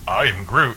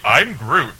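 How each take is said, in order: First: It is said in a thoughtful tone. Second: It is said in a cheery tone.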